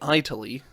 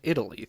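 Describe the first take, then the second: First: The first vowel sounds like 'eye'. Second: The first vowel sounds like 'ih'. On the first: The speaker calls it wrong. "you don't call the country Italy" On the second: The speaker calls it right. "you call it Italy"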